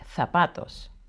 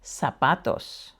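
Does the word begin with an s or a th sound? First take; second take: th; s. First: It begins with a th sound. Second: It begins with an s sound. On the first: "in Spain it would be" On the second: "It's always pronounced as an S"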